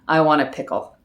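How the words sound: It is said in a flat, even tone. "I just say it flat"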